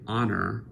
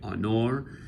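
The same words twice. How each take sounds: First: The stress is on the first syllable. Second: The stress is on the last syllable. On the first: The speaker calls it wrong. "We don't say honor" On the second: The speaker calls it right. "the final syllable must be strong"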